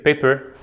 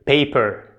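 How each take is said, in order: First: "paper" said without opening the mouth well; poorly vocalized. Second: "paper" said with the mouth well open; well vocalized. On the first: Teacher shows students weak vocalization, "paper" poorly articulated. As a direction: say "paper" with lazy, under-opened articulation. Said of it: "diferencia clara entre decir paper y decir". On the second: Teacher shows students clear vocalization, "paper" fully articulated. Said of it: "es importante la vocalización". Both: Shown as a demonstration.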